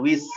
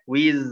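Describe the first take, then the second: First: The final sound has a hissing s-like airflow. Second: The final sound is voiced without hissing airflow. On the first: The speaker calls it wrong. "Jangan ada S-nya, jangan wiz" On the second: The speaker calls it right. "Yang ngalir suaranya aja"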